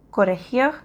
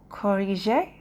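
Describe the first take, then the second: First: Corregir said the Spanish way, rolled r and a guttural g; Spanish pronunciation. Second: Corriger said the French way, uvular r and soft zh sound; French pronunciation. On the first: Learner contrasts the Spanish word with the French, Spanish pronunciation. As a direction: give corregir its Spanish sound. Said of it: "En espagnol". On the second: Learner gives the correct French word after the Spanish, French pronunciation. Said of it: "mais en, en français". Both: Shown as a demonstration.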